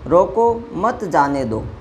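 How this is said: There is a pause after the first word. Stop him, do not let him go. "एक तरफ होता है रोको, उसके बाद देखिए यहाँ विराम चिन्ह प्रयोग हुआ है"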